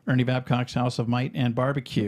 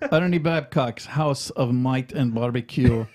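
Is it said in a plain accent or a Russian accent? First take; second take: plain; Russian accent. First: It is said in the speaker's plain accent. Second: It is said in a put-on Russian accent. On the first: The speaker calls it wrong. "I'm sorry" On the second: The speaker calls it right. "you have to read it in the Russian accent"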